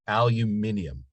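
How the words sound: It is said the British way.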